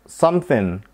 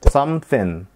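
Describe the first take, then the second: The two takes are said the same way.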